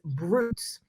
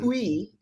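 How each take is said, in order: First: It is said like English brutes, ending in s. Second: It is said the French way, with no s. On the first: "the Americanized version of it" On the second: "the French the French spelling uh, pronunciation of it"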